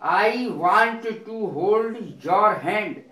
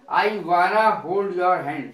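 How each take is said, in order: First: Both words 'want to' are said fully. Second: 'Want to' is merged into 'wanna'. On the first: "वाना माने वांट टू" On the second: "वांट टू की short form वाना"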